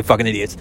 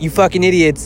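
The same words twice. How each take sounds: First: Said in the usual way. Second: Higher, harsher jab at the idiots; imitating a blunt mentor; mock scolding. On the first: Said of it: "he didn't say". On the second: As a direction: throw it at them like a frustrated mentor. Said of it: "He's like".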